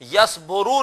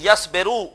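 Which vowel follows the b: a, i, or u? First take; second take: u; i. First: The vowel after the b is u. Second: The vowel after the b is i. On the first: The speaker calls it wrong. "Yes बोरू नहीं" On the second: The speaker calls it right. "बल्कि यस बेरू"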